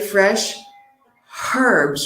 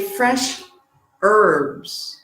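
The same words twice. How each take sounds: First: The h in herbs is pronounced. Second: The h in herbs is silent. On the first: "And in the U K" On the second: "in the U S, we say"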